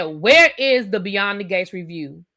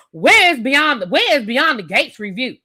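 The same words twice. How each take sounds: First: Curt, blunt demand; rude. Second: Blunt, demanding question, louder; rude reading. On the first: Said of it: "doesn't that sound a little rude". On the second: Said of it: "You hear how I read that in my head". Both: Shown as a demonstration.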